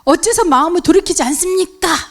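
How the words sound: It is said in a harsh, reproachful tone. The speaker seems self-righteous and closes hearts. The speaker calls it wrong. "듣는 상대방에게 질책하는 그러한 억양"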